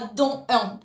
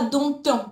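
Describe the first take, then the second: First: No t sound links the two words. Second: A t sound links the two words. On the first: The speaker calls it right. "tu diras don un. La liaison est interdite" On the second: The speaker calls it wrong. "Tu ne diras pas"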